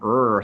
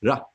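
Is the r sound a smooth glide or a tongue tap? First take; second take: glide; tap. First: The r is a smooth glide without tongue contact. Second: The r is a quick flick of the tongue. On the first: The speaker calls it wrong. "it's not an R sound" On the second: The speaker calls it right. "you will flick your tongue off of the uh, uh, cliff behind the ridge behind your teeth"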